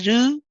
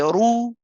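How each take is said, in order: First: The r sound is light and thin. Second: The r sound is heavy and full. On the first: The speaker calls it wrong. "we don't say Ru" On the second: The speaker calls it right. "we say Ru ... so heavy again"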